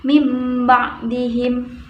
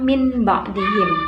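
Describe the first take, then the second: First: The nasal before b sounds like m. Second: The nasal before b sounds like n. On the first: The speaker calls it right. "seakan-akan membaca huruf mim" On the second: The speaker calls it wrong. "bukan min ba'dihim"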